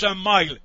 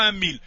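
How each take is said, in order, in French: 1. Le mot se prononce comme l'anglais 'mile'. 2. Le mot se prononce comme le français 'mille'. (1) "ça se prononce un mile" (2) "parce que c'est pas un mille"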